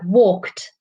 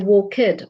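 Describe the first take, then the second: First: The ending is a plain t sound. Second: The ending is pronounced as an extra syllable. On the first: The speaker calls it right. "the ed sound at the end of the verb. So like walked" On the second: The speaker calls it wrong. "we don't say walked"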